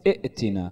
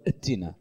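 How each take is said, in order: First: The word begins with a glottal stop and vowel. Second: The word begins with a bare consonant, no vowel. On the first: The speaker calls it right. "إذا أوقفت بدك تقول ائتنا" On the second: The speaker calls it wrong. "قلت اتنا، يعني بلشت ساكنة"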